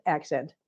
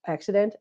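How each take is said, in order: First: "Accent" in two syllables, lower and softer; corrected word. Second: "Accident" with an extra middle syllable; slip of the tongue. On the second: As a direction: say "Accident" as a questioned slip for accent. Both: Real, not acted.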